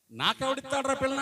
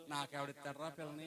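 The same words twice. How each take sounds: First: Put-on higher, louder scornful echo of the old man; mocking repeat. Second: Put-on softer, offhand old grandpa joking back; preacher voicing grandpa's quiet joke; old man's casual reply. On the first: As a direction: throw his words back at him in disbelief. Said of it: "అంటావేంటి?". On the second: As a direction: toss it off like a grandfather brushing off a tease. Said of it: "ఏమంటాడు?".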